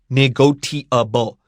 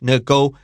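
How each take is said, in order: First: The 'ti' is said with a t sound. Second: The 'ti' is said with an sh sound. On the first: The speaker calls it wrong. "Students do not say negotiable" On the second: The speaker calls it right. "the T I here, fa, S H"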